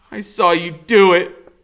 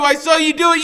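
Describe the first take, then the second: First: Put-on a boy facing the killer, still shouting; accusing shout. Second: Shrill, very high, loud screamed accusation; a boy shrieking the accusation at full force; screaming. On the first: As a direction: say it straight to his face, defiant. Boy confronts killer after question. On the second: Acted. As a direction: scream it with everything. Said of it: "so all I can do is keep screaming".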